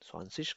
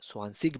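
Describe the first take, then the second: First: The word ends in a soft 'ich' sound. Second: The word ends in a hard 'ik' sound. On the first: This is the standard German form. The speaker calls it right. "ये ज़्यादा बेहतर है" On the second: This is the Austrian dialect form. The speaker calls it wrong. "वो Austrian dialect है"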